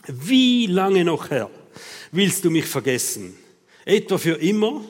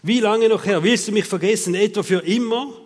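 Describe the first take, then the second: First: Drawn-out, reproachful plea to God; reproachful lament. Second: Loud, hammed-up reproach; exaggerated frustration. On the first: Acted. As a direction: stretch the opening cry, then press the question. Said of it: "Das sind schöne Vorwürfe". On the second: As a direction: vent at God with overblown frustration. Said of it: "den Frust rauslassen tut man immer ein bisschen übertrieben".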